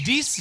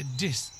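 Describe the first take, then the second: First: "This" with a too-distinct ee sound, like "dees"; higher "This", vowel too sharply defined; over-clear i. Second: "This" with a lax, short i; softer, lower "This", vowel not too distinct; relaxed short i. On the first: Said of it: "はっきりしすぎないね". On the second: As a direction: say "This" without opening the mouth much. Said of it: "口あまり開きすぎない". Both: Shown as a demonstration.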